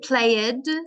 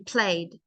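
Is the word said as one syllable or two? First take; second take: two; one. First: The ending is said as a separate syllable. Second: The ending joins the word in one syllable. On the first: The speaker calls it wrong. "I don't say played" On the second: The speaker calls it right. "I say played. It's one sound"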